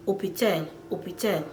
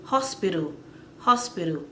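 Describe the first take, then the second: First: "hôpital" with silent H, starting on O; French pronunciation. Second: Said in the usual way. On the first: Shown as a demonstration. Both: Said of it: "the French will say".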